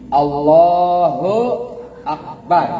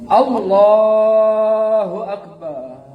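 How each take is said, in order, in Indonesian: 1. Suku kata terakhir bar dipendekkan. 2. Suku kata terakhir bar dipanjangkan. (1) "Barnya pendek ya" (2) "Itu lagi sakit hati"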